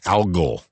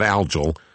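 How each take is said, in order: First: The g does not sound like in algae. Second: The g sounds like the g in algae. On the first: The speaker calls it right. "that's the right pronunciation" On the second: The speaker calls it wrong. "It's not algal, algal, even though it's out of algae"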